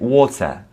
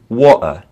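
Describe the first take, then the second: First: The middle T is pronounced as a clear T. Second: The middle T is left out entirely. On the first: "the posh uh, British English, they will say it" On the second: "in a lot of British English, they'll often just take out the T"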